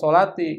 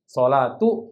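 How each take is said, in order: First: The word ends with an i vowel. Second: The word ends with an u vowel. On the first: The speaker calls it wrong. "Nggak boleh dibaca" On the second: The speaker calls it right. "harus bacanya dhammah itu"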